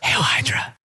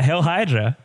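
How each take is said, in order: First: It is said in a quiet whisper. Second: It is said in a normal, full voice. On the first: The speaker calls it right. "You have to whisper that" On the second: The speaker calls it wrong. "Did I say it too loud?"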